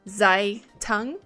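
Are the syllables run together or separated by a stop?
separated. There is a stop between the syllables. "really stop between um, syllables like that"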